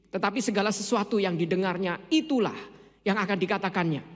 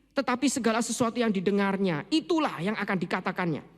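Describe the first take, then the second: The two takes are said the same way.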